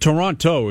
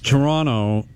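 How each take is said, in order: First: The second T is clearly pronounced. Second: The second T is dropped. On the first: This is how outsiders say it. "Like Toronto is totally fine" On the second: This is how local people say it. "if you're from Toronto, you usually don't pronounce the second T"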